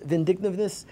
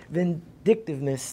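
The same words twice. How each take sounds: First: Vindictiveness slurred as "vindignivness", without the k and t; a first garbled go at vindictiveness, sounds tangled; stumbling over a word. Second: Vindictiveness said carefully with a clear k and t: vin-DIK-tiv-ness; corrected pronunciation. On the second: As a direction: land the word vindictiveness cleanly at last. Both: Real, not acted.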